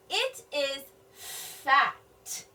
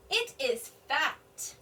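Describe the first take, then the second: First: Very slow, word by word; slow sounding out. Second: Said in the usual way. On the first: Shown as a demonstration. Teacher decoding for children, very slow. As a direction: sound out "fat" slowly. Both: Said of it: "noticing something about the gift".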